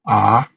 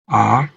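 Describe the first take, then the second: First: The pitch rises from low to high. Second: The pitch rises from low to high.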